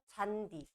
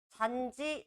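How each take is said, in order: First: The second syllable starts with a 'd' sound. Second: The second syllable starts with a 'j' sound. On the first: The speaker calls it right. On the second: The speaker calls it wrong.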